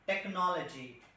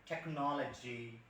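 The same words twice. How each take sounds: First: "technology" with an unaspirated retroflex t; Indian retroflex t. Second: "technology" with a soft alveolar, aspirated t, slow; aspirated Western t. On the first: Trainer shows Indian "technology", retroflex t. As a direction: Indian "technology", hard curled t. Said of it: "we Indian". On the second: Trainer demos the Western t in "technology". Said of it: "like American or Britishers". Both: Shown as a demonstration.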